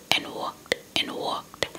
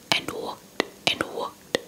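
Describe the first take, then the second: No difference in how they are said.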